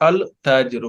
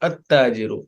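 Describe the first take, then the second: First: The article keeps a clear L sound. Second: The L merges into the following T sound. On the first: The speaker calls it wrong. "This is this is not Al Tajiru" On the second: The speaker calls it right. "but At Tajiru"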